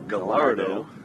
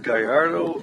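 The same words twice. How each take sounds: First: The name is pronounced the Italian way. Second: The name is pronounced the Latino way. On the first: The player is Italian.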